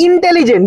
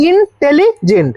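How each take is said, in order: First: Said in the usual way. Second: ইন্টেলিজেন্ট slowly in separate pieces, ইন, টেলি, জেন্ট; teacher breaking ইন্টেলিজেন্ট up, piece by piece; broken into syllables. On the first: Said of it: "এটা উচ্চারণ হচ্ছে একবারে". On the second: Shown as a demonstration. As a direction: split ইন্টেলিজেন্ট with short gaps between its parts. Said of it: "দেখ, এটা উচ্চারণ হচ্ছে একবারে".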